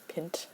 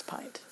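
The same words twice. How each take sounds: First: "pint" with a short i, rhyming with mint; quiet "pint", short i as in "hint"; mispronounced pint. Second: "pint" with a long i, as in "pie"; quiet "pint", long i as in "pine"; correct pint. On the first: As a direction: say "pint" with the vowel of "pin". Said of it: "kinda hard to pronounce, like pint". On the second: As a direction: say "pint" with the vowel of "eye". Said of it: "No, it's pint". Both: Shown as a demonstration.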